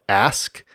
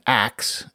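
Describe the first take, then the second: First: The s sound comes before the k. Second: The s sound comes after the k. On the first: "perhaps most famously in the word ask" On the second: "The variant pronunciation ax"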